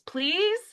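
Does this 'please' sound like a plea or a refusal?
plea. It sounds like a genuine, asking plea. The speaker is asking for something.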